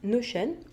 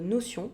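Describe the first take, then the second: First: The name is said with English pronunciation. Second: The name is said with French pronunciation.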